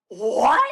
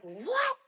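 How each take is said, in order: First: Loud, rising disbelief; incredulous what. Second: High, soft incredulous squeak; disbelief without yelling. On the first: Runner to husband on hearing the pace, incredulous. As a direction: blurt it out as a startled question. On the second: Runner disputing husband's pace figure, disbelieving but not yelling. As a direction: question it in a high, hushed voice. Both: Retold or imitated. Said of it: "didn't yell at him".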